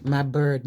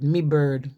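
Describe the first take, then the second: First: Said in the usual way. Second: "me" in place of my; weak "me" before bird; Scouse "me". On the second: Shown as a demonstration. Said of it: "they call them".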